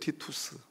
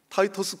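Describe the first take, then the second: First: The first vowel is pronounced like 'tee'. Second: The first vowel is pronounced like 'tie'. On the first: This is the name's original form. "티투스예요" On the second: This is how Americans pronounce it. "미국 사람들이 발음하니까 저렇죠"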